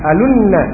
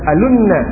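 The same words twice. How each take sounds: The two takes are said the same way.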